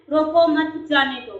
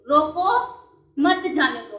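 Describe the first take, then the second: First: रोको मत said as one group, then जाने दो; pause after मत. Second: रोको alone with a lifted end, pause, then मत जाने दो; pause after रोको. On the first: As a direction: join रोको to मत, break before जाने दो. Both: Shown as a demonstration. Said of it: "तो एक कॉमे में भी क्या होता है, डिफरेंस होता है".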